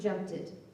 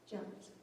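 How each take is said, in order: First: The ending is an extra 'id' syllable. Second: The ending is a single t sound. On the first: The speaker calls it wrong. "you'll get away from" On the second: The speaker calls it right. "Then the tongue tapper will be unvoiced"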